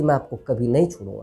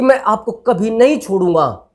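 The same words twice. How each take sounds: First: It is said in a loving tone. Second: It is said in an angry tone. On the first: It means wanting to stay together forever. "प्रेम से बोलोगे" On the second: It sounds like a threat of harm. "गुस्से में बोल रहे हो"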